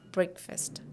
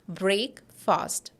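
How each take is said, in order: First: It sounds like one word, brek-fust. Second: It sounds like two words, brake and fast. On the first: The speaker calls it right. "It is breakfast" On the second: The speaker calls it wrong. "people usually say together it as break fast"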